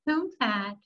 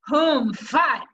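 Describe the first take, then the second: First: It is said weakly, with little energy. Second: It is said forcefully, with strong energy. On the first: The speaker calls it wrong. "You don't say" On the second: The speaker calls it right. "you got to say it with power and energy"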